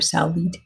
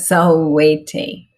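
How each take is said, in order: First: The word ends with an i-like vowel plus t. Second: The word ends with a pronounced final vowel. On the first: The speaker calls it wrong. "or salvit" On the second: The speaker calls it right. "but salvete"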